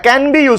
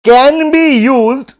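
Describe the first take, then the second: First: Said in the usual way. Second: "can be used" dictated word by word, very slowly; slow dictation. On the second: Shown as a demonstration. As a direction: spell it out slowly for notes. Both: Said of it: "लिखो".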